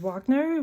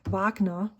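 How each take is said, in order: First: Wagner is said with an English pronunciation. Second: Wagner is said with a German pronunciation.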